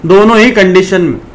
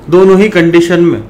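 Both takes have the same delivery.

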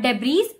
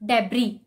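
First: Debris with the S sounded, debreez; mispronounced debris; wrong debris. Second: Debris with silent S, deb-ree; correct debris. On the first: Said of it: "Not debris". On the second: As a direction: end debris on the ee. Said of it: "the actual pronunciation is". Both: Shown as a demonstration.

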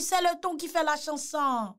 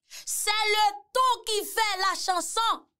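First: Said in the usual way. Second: "C'est le ton qui fait la chanson" said slowly and higher, leaning on "ton"; slow emphatic saying. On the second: Shown as a demonstration. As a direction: drag it out and hit "ton".

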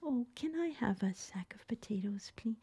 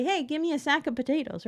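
First: Whispered polite request for potatoes; gentle request. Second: Quick, higher pitched curt "Hey" order; blunt order. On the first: Shopper asking for potatoes in a soft whisper. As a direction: breathe the request softly and politely. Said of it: "we don't say". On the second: Customer barking a potato order quickly and curtly. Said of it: "We kinda shout it out". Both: Shown as a demonstration.

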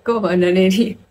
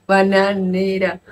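First: Bananería, with the extra i, the wrong form; puzzled bananería; saying bananería. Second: Bananera said slowly, no i, the right word; slow corrective bananera. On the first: Real, not acted. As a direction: stress the odd bananería as a question. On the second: Shown as a demonstration.

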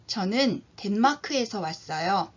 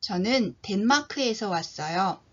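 Both takes have the same delivery.

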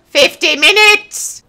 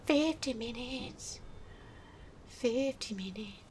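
First: High, slow, indignant cry; outraged exclamation. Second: Very soft, slow repetition; deflated murmur. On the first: Gamer outraged at time spent, raised exclamation. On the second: Gamer absorbing time wasted, deflated murmur. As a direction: let it drain to near nothing. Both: Real, not acted.

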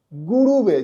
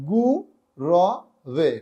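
First: "গুরুবে" run together with u twice, gu-ru-be; form as seen. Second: "গু র বে" as three separate sounds with pauses, gu, ro, ve; broken into syllables. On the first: Teacher reading what learners see, uncorrected pronunciation. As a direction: say "গুরুবে" with a second u. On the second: Teacher correcting the word for learners, syllable-by-syllable pronunciation. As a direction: separate "গু র বে", open vowel on the middle one. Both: Shown as a demonstration. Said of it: "সেটা হবে".

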